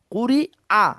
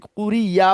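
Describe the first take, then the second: First: "কুরি আ" high, with a clean "aa" and no y-glide; correct hamza. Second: "কুরি ইয়া" with a y-glide running into the last vowel; mistaken glide. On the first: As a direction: model "কুরি আ", starting the final "আ" afresh as a hamza. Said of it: "আ হবে". (শুদ্ধ হামজা, "কুরি আ"-তে আলাদা স্পষ্ট আ) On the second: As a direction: imitate the slip "কুরি ইয়া", ending in "ya". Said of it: "আপনি কুরি ইয়া বলতেছেন না তো". (ভুল উচ্চারণ, "কুরি ইয়া"-র শেষে ইয়া-ধ্বনি) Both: Shown as a demonstration.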